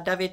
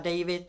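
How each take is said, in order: First: The name is pronounced the Czech way. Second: The name is pronounced the English way. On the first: This is how the name is said at home. "David je to v České republice" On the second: This is how the name is read abroad. "akorát to přečtou třeba David"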